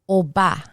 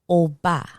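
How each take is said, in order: Both takes have the same delivery.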